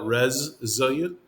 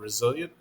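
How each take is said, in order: First: The first syllable sounds like 'rez'. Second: The first syllable sounds like a plain 'ri'. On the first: This is the form used in the tribes. "we call it resilient ... R A Z, like reservation" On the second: This is the usual form. "instead of"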